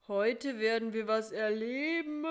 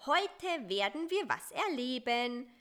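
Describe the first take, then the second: First: Drowsy, grumbling repeat in a different spider voice, louder; half-awake spider mumbling the words back; groggy, put-upon repetition; sleepy echo. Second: Bright, coaxing promise with a lift on wir; lightly sugary fly voice; cooing sweetly. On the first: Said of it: "kam es verschlafen von Karl-Heinz". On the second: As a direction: sweet-talk the spider into adventure. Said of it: "säuselte Busy". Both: A narrator's reading.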